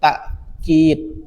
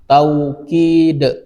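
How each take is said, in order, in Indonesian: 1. Hamzah mengikuti vokal pertama. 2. Bunyi w mengikuti vokal pertama. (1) "Wawunya diganti dengan huruf hamzah" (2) "Boleh pakai waw"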